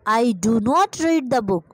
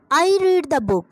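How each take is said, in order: First: Each word spelled out slowly; slow teacher dictation. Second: Said in the usual way. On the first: Shown as a demonstration. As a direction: dictate it word by word for students to copy. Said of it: "question mark और full stop को right करना नहीं भूलना". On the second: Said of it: "तो क्या आएगा जी".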